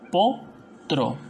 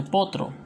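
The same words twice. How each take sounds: First: "Potro" broken as po, pause, tro; rising po, then a separate tro in "Potro"; split into syllables. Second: Said in the usual way. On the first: Shown as a demonstration. Teacher showing the consonant group, "Potro" said po, tro. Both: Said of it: "vendría a ser separo".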